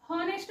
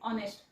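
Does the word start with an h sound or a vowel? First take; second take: h sound; vowel. First: The word starts with an audible h sound. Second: The word starts with a vowel, no h sound. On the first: The speaker calls it wrong. "हॉनेस्ट म्हणू नका" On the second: The speaker calls it right. "हा शब्द आहे ऑनेस्ट"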